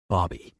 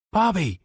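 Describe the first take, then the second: First: Said in the usual way. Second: Higher, louder call. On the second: Acted. Johnny calls Bobby louder after a plain first try, loud call. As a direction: call his name out. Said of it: "he called out".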